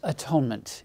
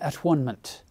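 First: The middle sounds like the word 'tone'. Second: The middle sounds like the word 'one'. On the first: "William Tyndale probably wouldn't have pronounced this atonement" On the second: "It would have been atonement for him, because it's all about unity and oneness"

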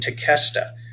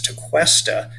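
First: The 'que' is said as a plain K. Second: The 'que' is not said as a plain K. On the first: The speaker calls it right. "the sound that is made by the QE is a K sound" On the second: The speaker calls it wrong. "that's an incorrect pronunciation"

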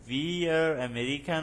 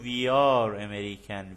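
First: The words 'we are' are contracted together. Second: The words 'we are' are said separately.

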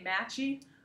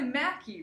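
First: The middle consonant is a 'ch' sound. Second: The middle consonant is a 'k' sound. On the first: The speaker calls it wrong. "a lot of them say Matchy" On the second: The speaker calls it right. "but it's really Mackie"

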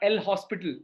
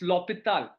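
First: An s sound is heard before the p. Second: No s sound is heard before the p. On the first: The speaker calls it wrong. "It's not El Hospital" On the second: The speaker calls it right. "It's L'Hôpital. Yeah, it's French"

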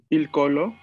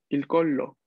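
First: The L sound is short. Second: The L sound is held longer. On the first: "no existe, pero digamos, il colo" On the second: "¿Sí se escucha que hay doble L en la segunda?"

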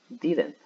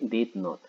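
First: It is said as one quick contracted word. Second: It is said as two separate full words. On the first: "de una vez más rápido" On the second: "Usted puede ponerlo así hasta que coja práctica"

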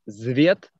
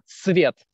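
First: The word begins with a buzzing z sound. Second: The word begins with a hissing s sound. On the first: The speaker calls it wrong. "not Zviet" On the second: The speaker calls it right. "Not Z"

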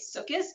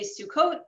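First: It is said the way Orthodox Jews usually say it. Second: It is said the way non-Orthodox Jews usually say it.

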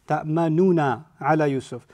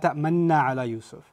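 First: A u vowel separates the two n sounds. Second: The two n sounds merge with no vowel between.

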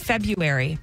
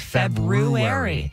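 First: The first r sound is left out. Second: The first r sound is clearly pronounced. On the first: The speaker calls it wrong. "I say February" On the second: The speaker calls it right. "you're supposed to say February"

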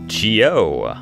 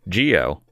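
First: The stress is on the second syllable. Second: The stress is on the first syllable.

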